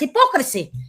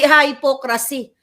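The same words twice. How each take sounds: First: It begins with a short 'hih' and stressed 'pok'. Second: It begins with a long 'hye' like 'hypo'. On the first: The speaker calls it right. "binibigkasan as hypocrisy" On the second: The speaker calls it wrong. "hindi hypocrisy"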